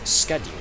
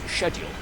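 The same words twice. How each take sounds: First: The word is said the American way. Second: The word is said the British way. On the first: "The way most of my American friends ... pronounce it is schedule" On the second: "here in the U K is schedule"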